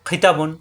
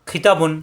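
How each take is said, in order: No difference in how they are said.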